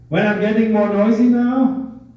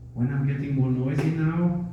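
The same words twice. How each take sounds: First: It is said at a louder volume. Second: It is said at a quieter volume.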